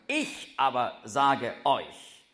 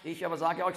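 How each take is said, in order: First: The word 'ich' is stressed. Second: The word 'ich' is not stressed. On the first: The speaker calls it right. "im Grundtext ist ich betont" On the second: The speaker calls it wrong. "Also nicht"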